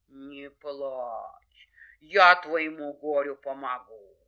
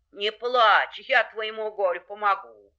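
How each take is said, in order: First: Low, drawn-out bear voice; reassuring bear. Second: Mid-pitched, firm animal helper; reassuring wolf. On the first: Bear promises the hare help, ponderous. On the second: Wolf promises the hare help, reassuring. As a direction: comfort firmly, in an even voice. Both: Acted.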